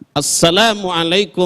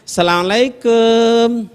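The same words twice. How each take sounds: First: The greeting sounds earnest and sincere. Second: The greeting sounds playful and flirtatious. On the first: The greeting is meant as a real prayer. The speaker calls it right. "Tapi salamnya tulus ki" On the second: The greeting is used to flirt, not as a prayer. The speaker calls it wrong. "salamnya kok salam cime eh"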